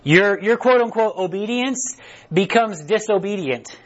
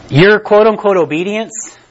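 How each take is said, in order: First: Slow, even repeat so people can write; repeated slowly for note-takers. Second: Your quote-unquote obedience, slow, with stress; slow emphatic quote-unquote. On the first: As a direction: say it again slowly, word by word. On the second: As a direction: lean hard on quote-unquote. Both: Shown as a demonstration. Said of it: "I'll say it again".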